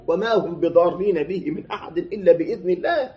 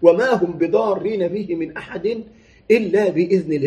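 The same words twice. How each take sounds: First: Said in the usual way. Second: Quran recitation. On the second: Shown as a demonstration. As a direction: stretch وما and rise, then fall on إلا. Recites the verse again slowly.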